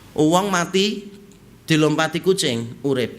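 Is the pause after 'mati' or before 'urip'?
after mati. A pause comes right after the word 'mati'. A dead person is stepped over by a living cat. "Jadi orang orang mati, dilompati kucing hidup"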